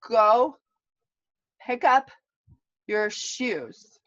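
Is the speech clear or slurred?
slurred. The words are spoken slurred and delayed.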